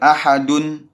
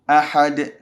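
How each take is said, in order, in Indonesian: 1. Kata ini diakhiri dengan bunyi n tambahan. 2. Kata ini diakhiri tanpa bunyi n tambahan.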